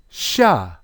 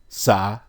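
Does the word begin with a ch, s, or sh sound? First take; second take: sh; s. First: The word begins with an sh sound. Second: The word begins with an s sound. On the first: "The sin has a sh sound" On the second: "because they also have an S sound. It could be sa"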